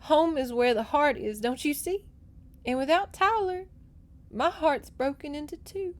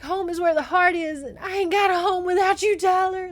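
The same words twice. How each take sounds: First: Higher, sorrowful heroine; sad. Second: High, loud, hammed-up heartbreak; re-enacted wail. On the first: A narrator's reading. Heartbroken girl explains to the rider, sadly. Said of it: "she said sadly". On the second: Reader recaps girl's plea to her love, wailing dramatically. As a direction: belt it out as the tragic heroine. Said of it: "And she's like".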